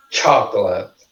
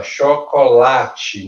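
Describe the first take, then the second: First: Chocolate the English way, "CHOK-lat"; stress on CHO. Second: Chocolate the Portuguese way, "sho-ko-LA-tchi"; stress on LA. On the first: Teacher showing English stress, chocolate stressed on CHO. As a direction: open chocolate on a strong CHO, two syllables. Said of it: "cho é a sílaba mais forte". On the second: Teacher contrasting the native word, chocolate stressed on LA. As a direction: lean on the third syllable of chocolate. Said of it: "o lá é mais forte". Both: Shown as a demonstration.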